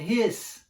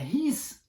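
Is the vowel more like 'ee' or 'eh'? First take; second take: eh; ee. First: The vowel sounds closer to an 'eh'. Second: The vowel sounds like a tense 'ee'. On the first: The speaker calls it right. "é his" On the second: The speaker calls it wrong. "não é his"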